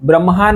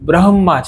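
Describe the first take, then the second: First: The m sound comes before the h. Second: The h sound comes before the m. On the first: The speaker calls it wrong. "બ્રહ્મા નથી" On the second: The speaker calls it right. "એટલે હ પહેલા આવી જાય છે"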